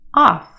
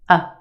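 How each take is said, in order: First: The vowel is a full, clear vowel. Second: The vowel is a quick, reduced schwa.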